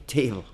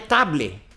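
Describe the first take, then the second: First: The first vowel is a gliding 'ay' sound. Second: The first vowel is a plain open 'ah'. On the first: The speaker calls it right. "é table. É outro som" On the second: The speaker calls it wrong. "não é table"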